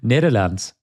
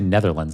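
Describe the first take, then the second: First: It is said with a Dutch pronunciation. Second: It is said with an English pronunciation. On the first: "It's at Dutch pronunciation" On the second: "I can't even say Netherlands"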